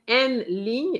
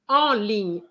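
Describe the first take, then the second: First: The first word is said with an N sound. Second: The first word is said as a nasal vowel. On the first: The speaker calls it wrong. "you said en ligne" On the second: The speaker calls it right. "E-N is en, not N"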